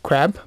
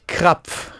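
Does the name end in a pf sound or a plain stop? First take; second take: plain stop; pf sound. First: The name ends in a plain stop sound. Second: The name ends in a pf sound. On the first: "When they read it in English, it sounds like crab" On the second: "In German, it's Krapf"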